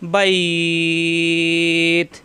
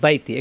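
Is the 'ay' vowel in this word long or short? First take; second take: long; short. First: The word ends clipped with a lengthened 'ay' vowel. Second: The word runs on with a short 'ay' vowel. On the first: The reader stops at the end of the verse. "এখানে মনে মনে সাকিন দিলাম" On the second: The reading continues without a stop. "মিলিয়ে পড়ে যাই তখন কিন্তু আবার টান হবে না"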